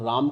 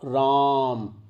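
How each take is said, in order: First: The vowel is held for a normal length. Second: The vowel is stretched out very long. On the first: "उसमें प्लुत स्वर नहीं है" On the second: "इस तरह से बोलेंगे तो इसमें ... प्लुत स्वर हैं"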